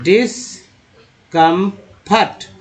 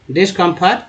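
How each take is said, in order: First: डिस्कम्फर्ट drawn out slowly, syllable by syllable; slow teaching demo. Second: Said in the usual way. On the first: Shown as a demonstration. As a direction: spell out डिस्कम्फर्ट slowly for the class. (धीमे-धीमे डिस्कम्फर्ट का उच्चारण) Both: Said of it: "डिस होता है तो".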